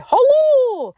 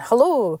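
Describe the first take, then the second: First: Hello leaps very high and is held long, then falls; a long, high, sung-out Hello; Ian's hello. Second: Said in the usual way. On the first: Retold or imitated. Imitating her late Scottish friend's high drawn-out Hello. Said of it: "he'd say". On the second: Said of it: "instead of just saying".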